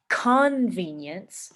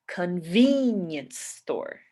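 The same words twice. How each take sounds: First: CON-venience with the force on CON; stress on first syllable. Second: Slow con-VEEN-ience store, force on VEEN; stress on second syllable. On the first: Teacher shows the wrong stress, CON-venience. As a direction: punch the CON of convenience. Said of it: "instead of putting force on the". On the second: Teacher shows the usual stress, con-VEEN-ience. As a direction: stretch the VEEN in convenience. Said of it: "we say". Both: Shown as a demonstration.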